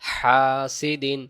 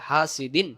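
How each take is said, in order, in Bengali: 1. প্রথম স্বরটি টেনে লম্বা পড়তে হবে। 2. প্রথম স্বরটি ছোট করে পড়তে হবে। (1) "হা এগালিব" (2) "তখন জবরের পরে আলিফটা বাদ যাবে"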